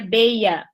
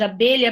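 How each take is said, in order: First: The middle consonant is replaced by an i glide. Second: The middle consonant is a palatal lh sound. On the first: "substituindo esse L e esse L, né, o L H, pelo I" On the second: "No lugar de abelha"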